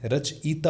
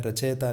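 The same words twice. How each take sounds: First: रचयिता as rach-ita, i after ch; correct pronunciation. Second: रचयिता said as rachayta, e for i; mispronunciation demo. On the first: Teacher models it for students, रचयिता pronounced rach-ita. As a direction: bring out the i in रचयिता. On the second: Teacher shows the mistake, रचयिता mispronounced as rachayta. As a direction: blur the i of रचयिता into e. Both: Shown as a demonstration. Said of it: "रचयिता नहीं होता है".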